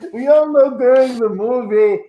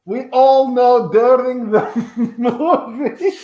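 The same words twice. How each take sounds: First: Said in the usual way. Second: Laughing. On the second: Acted. Breaks up mid-line.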